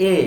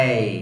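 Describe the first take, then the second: First: A as learners commonly say it; wrong A. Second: এই said softly from mid-throat; a soft, gliding এই from the middle of the throat. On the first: Teacher showing learners the usual mistake, wrong A. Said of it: "আমরা বলি". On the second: Teacher modelling the letter A, soft mid-throat sound. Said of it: "একদম soft, middle থেকে". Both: Shown as a demonstration.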